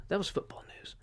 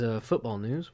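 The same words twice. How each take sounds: First: Unvoiced whispered aside, higher. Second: Said in the usual way. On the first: Shown as a demonstration. Podcaster muttering a wrap-up to himself, whispered. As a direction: whisper it to yourself. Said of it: "What else do we have in news?".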